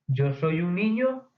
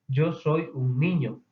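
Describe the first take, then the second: First: It is said as a question. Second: It is said as a plain statement.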